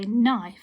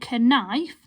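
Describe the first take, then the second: First: No K sound is heard at the start. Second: A K sound is heard at the start. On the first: The speaker calls it right. "The silent K" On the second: The speaker calls it wrong. "we don't say knife"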